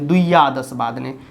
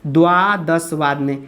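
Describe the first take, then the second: First: The first word begins with an added 'dviya' sound. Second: The first word begins with a plain 'dva' sound. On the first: The speaker calls it wrong. "जो बिल्कुल गलत है" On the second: The speaker calls it right. "बारह बजे का जो है होता है द्वादश वादने"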